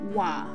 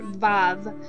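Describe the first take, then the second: First: The name begins with a W sound. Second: The name begins with a V sound. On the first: This is the biblical Hebrew pronunciation. "we're studying the biblical Hebrew, so we will say Wa" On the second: This is the modern Hebrew pronunciation. "a lot of people who speak modern Hebrew pronounce this letter Vav"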